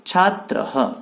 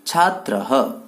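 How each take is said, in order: First: छात्रः said slowly with a clear final visarga echo "छात्रहः"; model pronunciation. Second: छात्रः again with the visarga voiced "हə" at the end; repeated model word. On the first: Teacher models छात्रः for pupils to repeat, full visarga "हः". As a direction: pronounce छात्रः syllable by syllable, breathing out the visarga as "हः". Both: Shown as a demonstration. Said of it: "आप सब मेरे पीछे पीछे इन सबको बोलेंगे".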